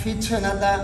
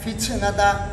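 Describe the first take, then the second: First: The t is released with a breathy, ch-like hiss. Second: The t is released with a breathy, ch-like hiss.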